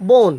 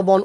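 First: বন with a closed o, "bon"; correct pronunciation. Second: বন with an open "aw", "bawn"; spelling pronunciation. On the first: Teacher answers the question, বন pronounced "bon". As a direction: round the vowel of বন to o. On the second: Teacher spells out the word, বন said "bawn". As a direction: open up the vowel of বন. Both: Shown as a demonstration. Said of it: "উচ্চারণটা হবে কি".

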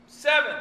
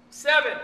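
Both takes have the same delivery.

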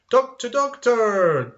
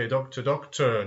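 First: Loud, high call for the doctor; acted urgent call, pitched high. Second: Said in the usual way. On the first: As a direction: cry out like a patient summoning help. Acts a patient calling the doctor.

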